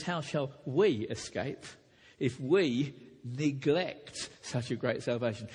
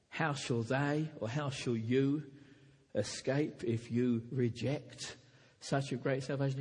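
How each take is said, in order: First: "we" and "neglect" leaned on, slow and deliberate; stress on we. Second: Said in the usual way. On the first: Shown as a demonstration. Preacher correcting his sermon text, stressing "we" and "neglect". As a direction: land on "we" and "neglect" in the true text. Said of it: "It says". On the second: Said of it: "does not say".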